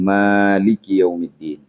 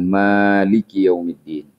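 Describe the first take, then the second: First: The vowel after the m is drawn out long. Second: The same.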